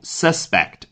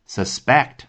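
First: The stress is on the first syllable. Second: The stress is on the second syllable. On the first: It is a noun meaning a person suspected of a crime. "做名词讲，也就是嫌疑犯，它的重音呢是在开头" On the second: It is a verb meaning to doubt or suspect. "做一个动词出现呢，那重音是suspect，是放在backed"

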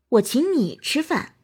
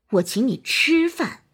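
First: The word 你 carries the stress. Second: The word 吃 carries the stress. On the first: "突出你" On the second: "突出吃"

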